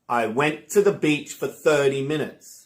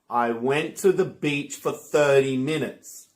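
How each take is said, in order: The two takes are said the same way.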